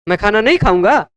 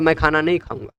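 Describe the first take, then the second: First: It is said with a challenging, rhetorical tone. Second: It is said as a flat, plain statement. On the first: The speaker will certainly eat. "बोलने की tone अलग हुई" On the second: The speaker will not eat. "लिखा हुआ पढ़ने पर तो आप कहेंगे"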